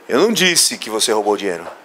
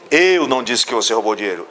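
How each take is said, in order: First: The stress is on the word disse. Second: The stress is on the word eu.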